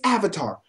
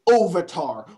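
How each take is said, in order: First: The first vowel sounds like the 'a' in 'cat'. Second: The first vowel sounds like an 'o'. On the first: The speaker calls it right. "it's Avatar" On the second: The speaker calls it wrong. "not fucking Ovatar"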